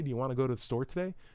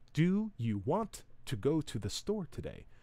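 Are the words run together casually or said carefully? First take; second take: casual; careful. First: The words are run together casually. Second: Each word is pronounced carefully and clearly.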